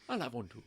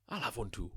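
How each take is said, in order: First: Lightly voiced film line again; a hint of a suave spy; movie character impression. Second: Lightly voiced film line; a hint of a suave spy; movie character impression. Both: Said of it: "impression there".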